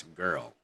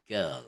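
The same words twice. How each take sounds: First: Put-on American "girl" with the R sounded; r-coloured American vowel in "girl". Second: Put-on "girl" as one syllable, "gull" with a long vowel; British "girl", no R heard; silent R. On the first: Teacher contrasts it with British, American rhotic "girl". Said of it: "not in American". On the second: Teacher models British "girl", one syllable with silent R. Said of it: "with silent R". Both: Shown as a demonstration.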